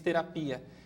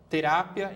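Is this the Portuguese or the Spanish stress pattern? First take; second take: Portuguese; Spanish. First: It carries the Portuguese stress placement. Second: It carries the Spanish stress placement. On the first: "em português" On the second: "Em espanhol"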